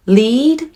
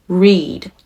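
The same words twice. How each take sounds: First: 'Lead' with a clear L, high and rising; L sound. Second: 'read' with an English R, falling; R sound. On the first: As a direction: lift 'Lead' upward from a clean L. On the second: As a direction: drop 'read' down from a rounded R. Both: Shown as a demonstration. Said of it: "LとRから始まっていますので".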